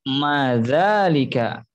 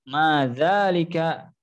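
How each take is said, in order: Both takes have the same delivery.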